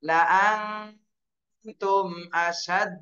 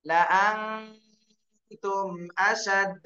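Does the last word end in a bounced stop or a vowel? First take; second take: bounced stop; bounced stop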